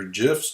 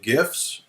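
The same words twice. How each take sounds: First: "gifs" with a soft g, like a j. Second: "gifs" with a hard g, as in gift. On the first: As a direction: say "gifs" as if spelt jifs. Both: Shown as a demonstration. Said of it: "depending on who brought you up".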